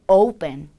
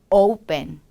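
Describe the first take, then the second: No difference in how they are said.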